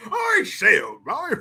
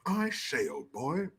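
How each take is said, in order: First: Exaggerated posh English. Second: Mock posh English. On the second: Mimics posh English, restrained first take.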